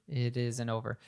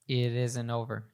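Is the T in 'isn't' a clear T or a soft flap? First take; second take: soft flap; soft flap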